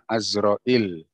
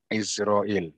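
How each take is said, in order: First: The first vowel is an open 'a' sound. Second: The first vowel is a close 'i' sound. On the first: The speaker calls it right. "Dibaca fathah ainnya. Ini yang sahih" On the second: The speaker calls it wrong. "Bukan kasroh"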